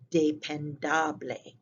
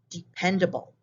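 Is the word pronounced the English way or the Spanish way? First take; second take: Spanish; English. First: It is pronounced with Spanish vowel sounds. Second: It is pronounced with English vowel sounds. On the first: "In Spanish, it means the same thing, but you pronounce it dependable" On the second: "In English, this is dependable"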